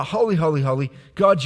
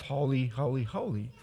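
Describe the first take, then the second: First: Holy, holy, holy, God rising loud and full; fervent praise. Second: Soft, reverent Holy, holy, holy, falling away; hushed holy holy holy. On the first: Preacher proclaims the praise aloud to the church. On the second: Preacher hushes the angels' words to his congregation. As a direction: let Holy, holy, holy drop almost to a breath. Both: Shown as a demonstration.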